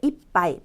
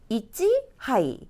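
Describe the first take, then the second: First: The parts merge into one word with a doubled p. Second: The two parts are kept apart, with an h. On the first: The speaker calls it right. "이빠이라고 얘기를 합니다" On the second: The speaker calls it wrong. "한 잔은 이찌 하이가 아니고"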